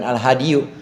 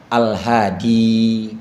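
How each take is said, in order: First: The word ends with an added 'yoo' sound. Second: The word ends on a long 'ee' sound. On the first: The case ending is spoken aloud. The speaker calls it wrong. "Bukan Al-Hadiyu" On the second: The case ending stays hidden. The speaker calls it right. "Ja'a Al-Hadi"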